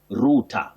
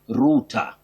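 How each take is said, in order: First: It is said with a British pronunciation. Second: The same.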